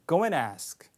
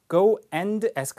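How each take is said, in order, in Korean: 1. 'and'라는 단어는 약한 'n'으로 줄어듭니다. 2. 'and'라는 단어는 완전하고 또렷하게 발음됩니다.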